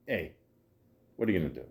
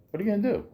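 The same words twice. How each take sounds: First: Low, soft, falling question; resigned shrug. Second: Much higher, rising question; high-pitched shrug. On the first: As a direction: toss it off quietly, dropping at the end. Rhetorical shrug, said two ways. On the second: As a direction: lift it high, ending on an upturn. Same question repeated for effect. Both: Shown as a demonstration.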